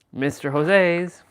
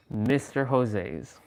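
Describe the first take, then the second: First: Mister Jose's slow, high and loud; drawn-out nickname. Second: Mister Jose's slow at normal pitch; slow nickname. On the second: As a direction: drawl Mister Jose's calmly. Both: Shown as a demonstration. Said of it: "that's Mister Jose's".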